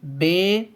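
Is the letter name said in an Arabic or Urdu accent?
Urdu. The letter name is said in an Urdu accent.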